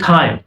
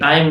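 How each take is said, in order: First: The T is released with a strong puff of air. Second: The T is soft, with no puff of air. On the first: The speaker calls it right. "टी के sound को blast किया" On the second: The speaker calls it wrong. "टाइम नहीं"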